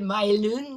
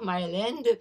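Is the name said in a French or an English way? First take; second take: French; English. First: The name is said with French sounds. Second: The name is said with English sounds. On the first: "prononcé par les Canadiens français de l'époque comme Myland" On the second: "et pas Myland"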